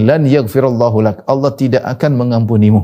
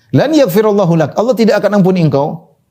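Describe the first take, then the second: First: Said in the usual way. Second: A touch of heated indignation; mild mock anger. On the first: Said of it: "Dia mengatakan". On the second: Worshipper condemning the sinner, mildly heated. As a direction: act out the worshipper's anger lightly. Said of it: "Dan ini dia emosi".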